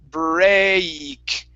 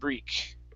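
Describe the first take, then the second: First: The vowel is slowed down and drawn out. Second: The vowel is quick and short. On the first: The speaker calls it right. "you want to slow it down and elongate it" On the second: The speaker calls it wrong. "right now you're saying break"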